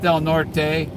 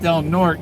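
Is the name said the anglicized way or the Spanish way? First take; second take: Spanish; anglicized. First: The name is said with a Spanish pronunciation. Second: The name is said with an English pronunciation. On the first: "I call it Del Norte" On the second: "they don't want to pronounce the Spanish way"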